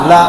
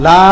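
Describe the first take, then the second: First: লা said short and quick; লা as one brief syllable; short quick vowel. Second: লা with a long drawn-out aa; লা pulled out long; stretched vowel. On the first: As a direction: cut লা off without stretching. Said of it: "তাড়াতাড়ি করতে হবে". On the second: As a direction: hold the vowel of লা too long. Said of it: "টান হবে না". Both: Shown as a demonstration.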